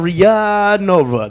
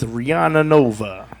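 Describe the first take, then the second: First: The first name is said like Ria. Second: The first name is said like Rihanna. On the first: The speaker calls it right. "I think it's Ria Nova" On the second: The speaker calls it wrong. "I'm gonna go with Rihanna Nova"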